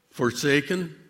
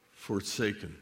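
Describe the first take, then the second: First: Said in the usual way. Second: "forsaken" dropped to a near-whisper, softer and lower; hushed. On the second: Real, not acted. Telling the Lord he dislikes this word, hushed. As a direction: let "forsaken" sink away, barely voiced.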